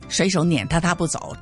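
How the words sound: The verb 撵 carries the main stress. The speaker calls it right. "那么这个呢就是正常的读了"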